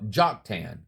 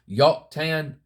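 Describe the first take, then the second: First: The name begins with a J sound. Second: The name begins with a Y sound.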